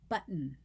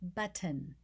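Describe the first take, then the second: First: The middle t is a glottal stop. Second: The middle t is clearly pronounced. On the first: The speaker says it this way. "I say button ... then I use a glottal stop" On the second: Someone else says it this way. "My daughter-in-law says button"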